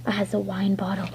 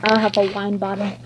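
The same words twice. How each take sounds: First: Secret whispered repeat. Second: Said in the usual way. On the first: Pretend. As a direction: hush it like a secret. Toy repeats line.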